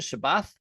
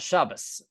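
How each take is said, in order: First: The word ends with a th sound. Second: The word ends with an s sound. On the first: This is the older, historical pronunciation. "was probably the more historical pronunciation" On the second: This is the Yiddish pronunciation. "in Yiddish, they have a s sound"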